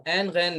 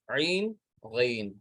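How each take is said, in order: First: عین غین with a short flattened "ain" vowel; Urdu-style pronunciation. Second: عین، غین slow, each drawn out as "ayn, ghayn"; Arabic pronunciation. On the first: Teacher shows the reading to avoid, Urdu-style عین غین. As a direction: run عین غین together as "ain ghain". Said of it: "نہیں پڑھیں گے". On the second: Teacher models for students, slow Arabic عین، غین. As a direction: stretch the glide in عین، غین, separately. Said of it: "اب عین غین نہیں پڑھیں گے". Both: Shown as a demonstration.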